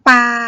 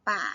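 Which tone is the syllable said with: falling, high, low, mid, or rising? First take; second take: mid; low. First: The syllable is said on a level mid tone. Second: The syllable is said on a low tone. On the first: "สามัญ" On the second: "เอก"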